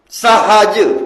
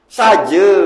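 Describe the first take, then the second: First: The middle h sound is pronounced. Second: The middle h sound is dropped.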